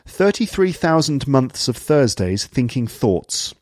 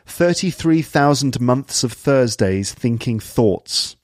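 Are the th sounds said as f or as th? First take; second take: th; th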